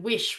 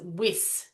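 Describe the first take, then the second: First: It ends with an sh sound. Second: It ends with a plain s sound. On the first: The speaker calls it right. "sh at the end, the sh sound" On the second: The speaker calls it wrong. "The word wish was pronounced as whis"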